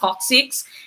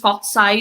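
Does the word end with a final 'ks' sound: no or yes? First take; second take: yes; no. First: The word ends with a final ks sound. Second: The word ends without a final ks sound. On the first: This is how it should be said. The speaker calls it right. "This should be uh, pronounced coccyx" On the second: This is how the speaker used to say it. The speaker calls it wrong. "I used to pronounce this cocci"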